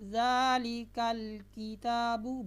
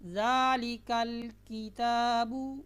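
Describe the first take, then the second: The two takes are said the same way.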